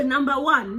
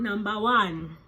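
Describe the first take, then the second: First: Laughing announcement. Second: Said in the usual way. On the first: Real, not acted. Reading the most wanted list.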